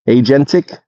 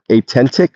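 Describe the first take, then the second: First: The middle consonant is a 'j' sound. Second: The middle consonant is a 't' sound. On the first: The speaker calls it right. "Agentic, not atentic" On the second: The speaker calls it wrong. "not atentic"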